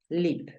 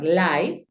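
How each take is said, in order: First: The vowel is a short 'i' sound. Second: The vowel is a long 'eye' sound. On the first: The speaker calls it right. "Tú la pronuncias lip" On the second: The speaker calls it wrong. "no lo vas a pronunciar live"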